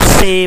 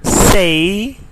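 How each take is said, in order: First: It is said with a Pakistani English vowel. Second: It is said with a British English vowel. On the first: The speaker calls it wrong. "is not say" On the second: The speaker calls it right. "but say"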